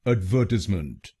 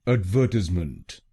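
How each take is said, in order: No difference in how they are said.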